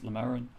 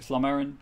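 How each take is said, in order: First: The name begins with a plain L sound. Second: The name begins with an SL sound. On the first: The speaker calls it right. "but it's Lamerin" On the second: The speaker calls it wrong. "I'm going to pronounce it Slamerin"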